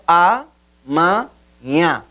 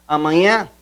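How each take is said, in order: First: "amanhã" slowly split into a, ma, nhã; syllable by syllable. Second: Said in the usual way. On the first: Shown as a demonstration. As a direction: say "amanhã" in three separate, slow beats. ("amanhã" bem devagar, separado em a, ma, nhã) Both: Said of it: "Separação silábica".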